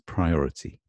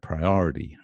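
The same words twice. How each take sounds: First: The T is crisp and clearly pronounced. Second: The vowel is lengthened and the T softened. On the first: "in British pronunciation, it's priority" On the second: "It's like lengthened there, priority, and it's like a softened T"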